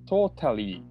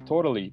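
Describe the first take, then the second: First: The middle t is a clear t sound. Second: The middle t is a quick flap. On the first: "totally じゃなくて" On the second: "totally っていう感じでこうフラッピングやってる"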